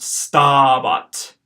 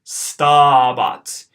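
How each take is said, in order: First: "stabat" with a long first a; careful pronunciation. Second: "stabat" louder, first a held long, second short; exaggerated long vowel. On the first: Teacher giving the answer "stabat" to students. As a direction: model "stabat" clearly. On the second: Teacher repeating "stabat" emphatically for students. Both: Shown as a demonstration. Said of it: "it's got a long A in the first syllable".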